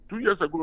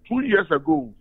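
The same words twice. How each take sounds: First: Said in the usual way. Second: Two years ago flung out high and loud; forceful high opening to drive the point home; emphatic. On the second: Real, not acted. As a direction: hit the phrase hard the first time, pitched well up. Emphatic repeat of a date.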